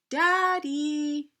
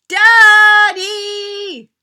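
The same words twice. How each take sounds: First: It is said a little louder. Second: It is yelled as loud as possible.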